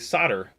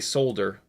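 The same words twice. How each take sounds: First: It is said with an American pronunciation. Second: It is said with a British pronunciation.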